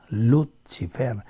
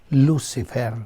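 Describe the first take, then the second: First: It is pronounced with Latin-style sounds. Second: It is pronounced with English-style sounds.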